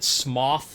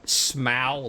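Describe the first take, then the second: First: The name rhymes with cough. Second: The name rhymes with bow. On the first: "like a cough" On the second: "like a bow"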